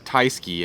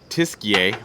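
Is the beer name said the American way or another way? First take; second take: American; another way. First: The name is said in an American way. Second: The name is said in a non-American way.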